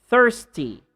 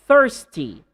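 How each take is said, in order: No difference in how they are said.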